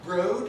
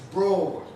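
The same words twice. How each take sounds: First: The vowel sounds like the one in road. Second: The vowel sounds like the one in thought. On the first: The speaker calls it wrong. "Is it broad like road? No, it's not" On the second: The speaker calls it right. "It has the same vowel as thought"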